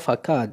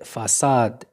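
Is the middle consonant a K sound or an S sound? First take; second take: K sound; S sound. First: The middle consonant is a K sound. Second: The middle consonant is an S sound. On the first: The speaker calls it wrong. "غادي نقراها فكاد إذا هذا خطأ" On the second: The speaker calls it right. "خصني سي سيدال إذا غادي نقراها فاساد"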